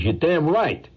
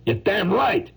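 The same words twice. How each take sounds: First: Higher-pitched touchy agreement; touchy retort. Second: High, indignant insistence; worked-up retort. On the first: Painter answering praise of his turtle, touchy retort. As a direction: agree as if a nerve was hit. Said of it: "this sore tooth like that". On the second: Painter insisting on his own talent, high worked-up retort. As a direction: insist hotly in a much higher voice. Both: Acted.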